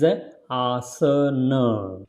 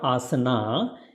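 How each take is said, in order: First: The first vowel is long. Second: The first vowel is short. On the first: The speaker calls it right. "It is a asana" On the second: The speaker calls it wrong. "but it is not asana"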